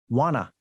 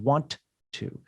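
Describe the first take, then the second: First: The two words blend into one reduced word. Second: The two words are said fully and separately. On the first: "We combine sounds" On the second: "instead of want to"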